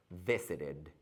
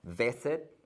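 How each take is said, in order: First: Visited with a clear extra -ed syllable, softer. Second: Said in the usual way. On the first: Shown as a demonstration. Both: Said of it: "extra syllable".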